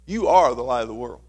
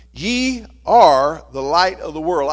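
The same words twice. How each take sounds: First: "are" held out as the key word; stress on are. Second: "are" leaned on, read slow and loud; slow, loud scripture read leaning on "are"; stress on are. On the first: Preacher to congregation, repeating it with "are" marked. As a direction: lean into "are", calmer. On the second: Preacher to congregation, slow loud stress on "are". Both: Shown as a demonstration. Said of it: "I want you to underline that word "are".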